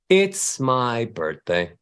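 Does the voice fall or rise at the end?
fall. The melody descends, falling at the end. The speaker sounds sad. The speaker calls it wrong. "every time you go down, you sound sad"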